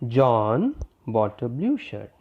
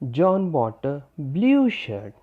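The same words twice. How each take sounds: First: The word John carries the main stress. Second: The word blue carries the main stress. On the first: Only this person bought it, nobody else. "Here I stress the word John" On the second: The shirt was this color, not another. "Here I am focusing on the word blue"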